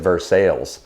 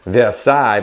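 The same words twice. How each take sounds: First: It is pronounced the anglicized local way. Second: It is pronounced the French way. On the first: The speaker calls it wrong. "they pronounce it Versailles because it's Kentucky" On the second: The speaker calls it right. "they have a town called Versailles"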